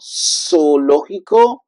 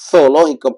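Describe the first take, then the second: First: The z sounds like a strong s. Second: The z sounds like th in thanks. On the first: This is the Latin American way of saying it. "like a strong S in English" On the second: This is the way people from Spain say it. "like T H in English, like thanks"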